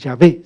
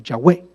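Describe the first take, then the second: First: The middle consonant is not a w sound. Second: The middle consonant is a w sound. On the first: The speaker calls it wrong. "pero no es Yahvé" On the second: The speaker calls it right. "sino Yahweh, con W"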